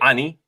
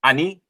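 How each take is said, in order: First: The word begins with an open 'ah' vowel. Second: The same.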